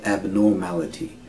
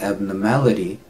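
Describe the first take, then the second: First: "abnormality" with an audible "nor"; fuller vowel. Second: "abnormality" with "nor" weakened to "nuh"; reduced vowel. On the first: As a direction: keep the OR in "abnormality". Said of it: "sometimes we say abnormality". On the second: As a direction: say "abnormality" as ab-nuh-MAL-ity. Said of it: "instead of saying abnormality". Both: Shown as a demonstration.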